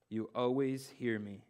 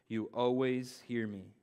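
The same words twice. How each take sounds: First: Said in the usual way. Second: "You always hear me" read slowly, leaning on "always"; slow down and weigh "always"; slow emphatic reread. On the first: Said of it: "read that again". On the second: Shown as a demonstration. Pastor rereads scripture so nobody skips it, slowly. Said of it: "I'm gonna read that again".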